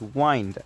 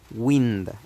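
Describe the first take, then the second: First: The vowel is a long 'eye' sound. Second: The vowel is a short 'ih' sound. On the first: The speaker calls it wrong. "I think that you would think that uh, the pronunciation is wind" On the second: The speaker calls it right. "this is an exception, and you have to pronounce it like wind"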